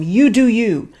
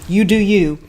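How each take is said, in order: First: It sounds warm and genuinely supportive. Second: It sounds doubtful and quietly dismissive.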